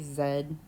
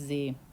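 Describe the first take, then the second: First: The letter is said as 'zed', British style. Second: The letter is said as 'zee', American style.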